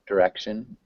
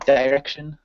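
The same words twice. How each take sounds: First: The first syllable has a short 'dih' vowel. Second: The first syllable has a long 'die' vowel. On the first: This is the American pronunciation. "Instead of saying die, we would say" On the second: This is the British pronunciation. "it's very British to say direction"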